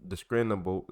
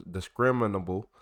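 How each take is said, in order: First: "discriminable" stumbled as discinable, the r dropped; tripping over "discriminable" and clipping it; stumbled misreading. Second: "discriminable" said out fully as dis-crim-in-able; careful correction. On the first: Reading an old UFO report aloud, he stumbles over a word. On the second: Reading an old UFO report aloud, he gets the word right. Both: Real, not acted.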